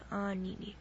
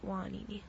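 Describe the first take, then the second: First: The name starts directly with a vowel sound. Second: The name starts with a w sound. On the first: "the story of Pele and Hiiaka is anini" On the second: "If you talk to kupuna of old, they call it wanini"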